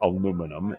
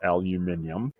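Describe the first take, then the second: First: It is pronounced the American way. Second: It is pronounced the British way. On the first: This is the speaker's home form, not used locally. "they don't say aluminum" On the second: This is the form used locally. "it's aluminium"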